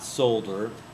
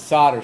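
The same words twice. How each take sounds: First: The L sound is clearly pronounced. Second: The L sound is left out. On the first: The speaker calls it wrong. "Do not pronounce the L. It's not solder" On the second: The speaker calls it right. "It's the solder side"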